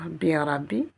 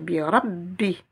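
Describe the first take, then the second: First: The b sound is short and single. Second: The b sound is held and doubled. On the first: The speaker calls it wrong. "je ne vais pas dire bi rabbi" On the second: The speaker calls it right. "comme si j'avais deux B"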